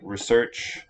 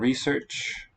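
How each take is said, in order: First: The stress is on the second syllable. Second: The stress is on the first syllable. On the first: It is used as a verb. "the verb will have, tend to have final stress" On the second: It is used as a noun. "versus the noun research"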